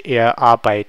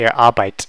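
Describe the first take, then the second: First: Arbeit with the final T left off; missing T sound. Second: Arbeit closed on one crisp final T; single T ending. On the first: Teacher showing what you couldn't say, Arbeit without its T. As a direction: say er Arbeit stopping after the "ei". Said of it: "it needs that T sound". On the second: Teacher showing what doesn't sound right, Arbeit with one T. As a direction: say er Arbeit with just one T at the end. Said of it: "that doesn't sound right". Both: Shown as a demonstration.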